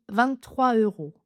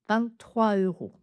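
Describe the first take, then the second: No difference in how they are said.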